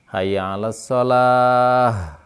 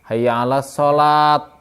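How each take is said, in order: First: The last word ends with an h sound. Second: The last word ends with a t sound. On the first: The speaker calls it right. "diganti dengan huruf ha gitu berhentinya itu" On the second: The speaker calls it wrong. "Atau jadi jadi ta"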